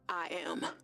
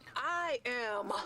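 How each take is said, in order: First: It sounds hesitant and unconvincing. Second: It sounds firm and convinced.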